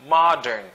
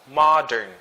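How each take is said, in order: Both takes have the same delivery.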